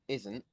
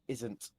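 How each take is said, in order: First: The T sound is dropped or softened. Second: The T sound is crisp and fully pronounced. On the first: The speaker calls it wrong. "instead of saying isn't" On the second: The speaker calls it right. "you're able to pronounce them fully"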